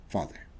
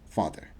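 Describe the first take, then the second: The two takes are said the same way.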